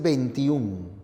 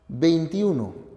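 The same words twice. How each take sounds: First: The number is shortened, ending in -ún. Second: The number is said in full, ending in -uno. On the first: The speaker calls it wrong. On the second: The speaker calls it right.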